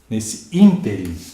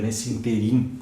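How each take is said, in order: First: The stress is on the first syllable of ínterim. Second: The stress is on the last syllable of interim. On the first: The speaker calls it right. "olhem a palavra proparoxítona" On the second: The speaker calls it wrong. "como se fosse oxítona"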